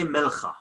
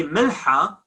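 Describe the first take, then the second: First: Milcha with a throaty rasped kh; spoken kh. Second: Milha with a breathed h; classical h. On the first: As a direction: say milcha with ch as in Bach. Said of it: "we say milcha". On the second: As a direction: say milha with no rasp in the h. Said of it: "It should be milha". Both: Shown as a demonstration.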